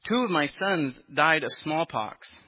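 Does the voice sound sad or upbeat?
upbeat. It is said in a light, unsorrowful tone. The speaker calls it wrong. "That wasn't the right tone of voice, was it?"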